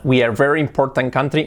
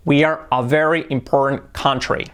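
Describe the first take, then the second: First: "very important country" with the article skipped; "We are very important" run on without "a"; imitated mistake. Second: "a" clearly placed before "very important"; corrected version. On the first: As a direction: copy the learner, Spanish-flavoured "important country". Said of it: "Se salta una A". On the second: Shown as a demonstration. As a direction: model "We are a very important country" carefully.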